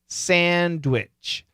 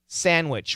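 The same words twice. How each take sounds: First: The D sound is pronounced in the middle. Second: The D sound is dropped from the middle. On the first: "we should keep the D" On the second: "sandwich with no D"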